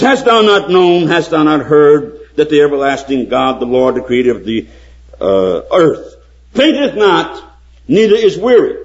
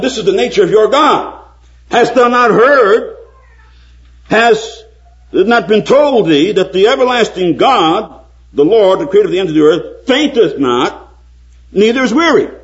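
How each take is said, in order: First: High, loud preaching of scripture; fervent pulpit reading. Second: Building preaching. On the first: Quoting Isaiah, preaching. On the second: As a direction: hammer each question home, building. Quoting Isaiah, more forcefully. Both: Acted.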